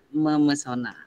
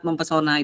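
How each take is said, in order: First: No p sound follows the mem prefix. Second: A p sound follows the mem prefix. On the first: The speaker calls it right. "Yang betul" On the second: The speaker calls it wrong. "itu salah"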